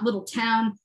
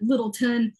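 First: Little Town as two words, full "town"; non-local pronunciation. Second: Littleton with the ending reduced to "tin"; local pronunciation. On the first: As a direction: give "Little Town" a clear second word. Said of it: "called it Littleton and not". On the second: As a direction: say "Littleton" as one word, weak last syllable. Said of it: "and not Little Town". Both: Shown as a demonstration.

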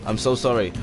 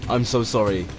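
Both takes have the same delivery.

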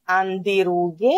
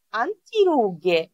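First: "antirughe" with nt blended into nd, like andirughe; Greek-style D. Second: "antirughe" slowly, with n and t both sounded; clear T. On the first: Teacher shows learners what to avoid, nd pronunciation. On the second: Teacher corrects the word for learners, slow n-t pronunciation. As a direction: say "antirughe" with a true t after the n. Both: Shown as a demonstration. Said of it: "δεν προφέρουμε antirughe".

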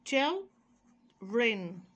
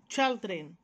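First: Put-on "children" slowly in two drawn-out parts with a pause; split into parts. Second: Said in the usual way. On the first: Shown as a demonstration. Teacher modelling the word for pupils, "children" stretched and split in two. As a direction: break "children" into chil, pause, dren.

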